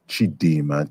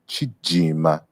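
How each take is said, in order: First: The middle consonant is a D sound. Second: The middle consonant is a J sound. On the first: "we're saying D" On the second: "in Chiluba it's pronounced like a J"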